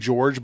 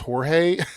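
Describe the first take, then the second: First: The name is said with English sounds. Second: The name is said with Spanish sounds. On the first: "I want to say this in the English way" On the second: "but it's Jorge"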